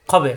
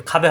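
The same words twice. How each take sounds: First: খবে starting on thick "kho"; heavy rounded vowel. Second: খাবে starting on open "khaa"; thin the first vowel of খাবে to "aa"; wrong open vowel. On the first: Teacher models the syllable, খবে with heavy "kho". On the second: Teacher shows the mistake, খাবে with open "khaa". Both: Shown as a demonstration. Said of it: "খাবে হবে না".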